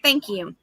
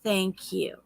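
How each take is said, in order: First: It is said at normal loudness and speed. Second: It is said slowly, drawn out.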